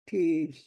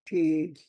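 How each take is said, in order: No difference in how they are said.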